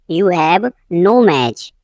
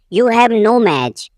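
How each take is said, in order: First: "you have", a pause, then "no match"; slow teaching take, split before "no match"; slow repeat. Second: Said in the usual way. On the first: Shown as a demonstration. Teacher repeating for learners, slow and divided.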